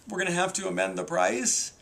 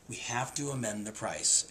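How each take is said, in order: First: It sounds hesitant and unsure. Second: It sounds firm and confident.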